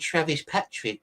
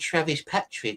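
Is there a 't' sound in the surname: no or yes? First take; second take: yes; yes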